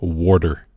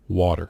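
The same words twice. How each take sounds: First: It sounds like 'warder', with an r in the middle. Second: It is said without an r in the middle.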